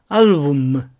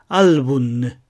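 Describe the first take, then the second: First: The word ends with a closed-lip m sound. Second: The word ends with a tongue-tip n sound. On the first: The speaker calls it wrong. "アルブムではなく" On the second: The speaker calls it right. "ちょっと最後工夫して発音します"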